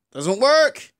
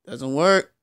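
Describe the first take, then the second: First: Exasperated repeat. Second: Said in the usual way. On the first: Real, not acted. Exasperated repeat of same words.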